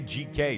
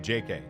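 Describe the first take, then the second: First: The first letter is said as 'gee'. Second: The first letter is said as 'jay'. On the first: The speaker calls it wrong. "every time I say I say G K too instead of J K" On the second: The speaker calls it right. "instead of J K"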